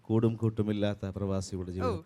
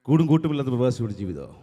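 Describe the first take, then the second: First: It is spoken as the original film dialogue. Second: It is spoken in a fast Tamil-accented imitation. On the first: "ആറാം തമ്പുരാൻ എന്ന ചിത്രത്തിലെ ലാലേട്ടൻ പറഞ്ഞു വെച്ചിട്ടുള്ള ആ ഡയലോഗുണ്ട്" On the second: "ഇത് രജനീകാന്ത് എന്ന് പറയുന്ന ആള് മലയാളത്തിൽ പറഞ്ഞാൽ എങ്ങനെ ഇരിക്കുന്നു?"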